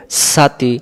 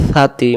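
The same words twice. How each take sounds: First: সাতি opened with a sharp hissed s; wrong sin sound. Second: Light air over the tongue tip starting সাতি; tongue-tip articulation. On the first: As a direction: say সাতি like "saa-tee". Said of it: "তখন এটা সিন হয়ে যাবে". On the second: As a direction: say সাতি like "thaa-tee", th as in "think". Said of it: "জিহ্বার আগা থেকে". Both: Shown as a demonstration.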